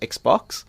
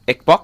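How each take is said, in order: First: It is said with a standard English accent. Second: It is said with a Vietnamese accent. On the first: "instead of" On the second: "Vietnamese people tend to say"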